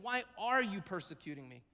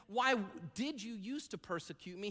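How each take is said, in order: First: ARE lifted, falling away after it; stress on ARE. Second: DID set apart after a pause, then softer; stress on DID. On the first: Preacher corrects to what Jesus is saying, stress on "are". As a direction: punch "are" to make it present tense. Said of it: "He's saying". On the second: Preacher gives what Jesus isn't saying, stress on "did". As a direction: lean on "did", putting it in the past. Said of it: "Jesus isn't saying". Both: Shown as a demonstration.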